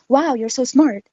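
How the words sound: It sounds excited and amazed.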